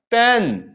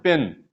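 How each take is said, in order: First: पेन with an open, held eh, like paen; correct E sound. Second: पेन said low and short, as students do; short, soft, low vowel in पेन; mispronounced E. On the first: Teacher correcting students, पेन with a long open eh. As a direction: open and lengthen the vowel in पेन. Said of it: "correct जो pronunciation है". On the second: Teacher mimicking students' mistake, पेन with a short low vowel. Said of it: "Absolutely wrong है". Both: Shown as a demonstration.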